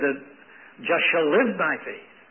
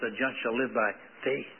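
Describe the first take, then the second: First: The stress is on the word live. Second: The stress is on the word faith.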